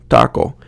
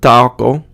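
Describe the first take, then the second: First: The first vowel is short, with a still jaw. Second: The first vowel is drawn out, with a moving jaw. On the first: The speaker calls it right. "if you say it correctly in Spanish, you're going to say like the word taco" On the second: The speaker calls it wrong. "it's not taco, uh, it's very short"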